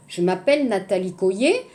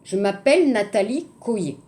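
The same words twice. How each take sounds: The two takes are said the same way.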